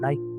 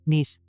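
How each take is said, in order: First: The vowel sounds like 'eye'. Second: The vowel sounds like 'ee'. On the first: It means pleasant or good. "नाइस to meet you" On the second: It names a city in France. "तो फिर ये France के एक शहर, इसको नीस कहते हैं"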